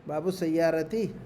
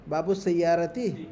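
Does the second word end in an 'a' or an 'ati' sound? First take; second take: ati; ati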